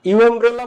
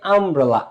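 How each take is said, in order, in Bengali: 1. শব্দটি 'yoo' শব্দ দিয়ে শুরু হয়। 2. শব্দটি 'uh' শব্দ দিয়ে শুরু হয়। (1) "তুমি কি ইউ আমব্রেলা ইউ আমব্রেলা বলো" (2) "ইউটা আ হয়ে যাচ্ছে"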